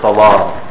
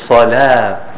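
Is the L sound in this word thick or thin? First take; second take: thick; thin. First: The L sound is heavy and thick. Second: The L sound is light and thin. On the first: The speaker calls it wrong. "instead of salah" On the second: The speaker calls it right. "it can be thin, such as any other place in the Arabic language, such as salah"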